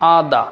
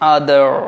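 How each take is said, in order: First: The final r sound is silent. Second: The final r sound is clearly pronounced. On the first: "British accent এটাকে আমরা রটাকে silent করে বলবো" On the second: "American অ্যাকসেন্টে বলবেন"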